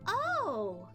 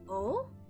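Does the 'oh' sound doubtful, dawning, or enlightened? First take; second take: enlightened; doubtful. First: It sounds bright and suddenly enlightened. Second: It sounds puzzled and unconvinced. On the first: The listener has gained new insight. "to let them know that you've gained new insight" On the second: The listener does not yet understand or believe it. "as if not quite comprehending or convinced"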